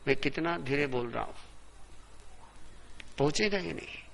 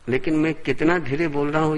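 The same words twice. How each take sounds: First: Much softer, as if stepped back from the microphone; off the mic. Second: Said in the usual way. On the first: Shown as a demonstration. Preacher showing that his voice will not carry, quiet off-mic speech. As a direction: turn away from the mic and speak quietly. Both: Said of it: "इतना सा भी mic से हट गया".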